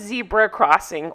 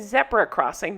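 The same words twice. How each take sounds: First: It is said in an American accent. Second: It is said in a British accent.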